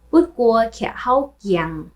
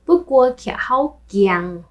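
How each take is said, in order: Both takes have the same delivery.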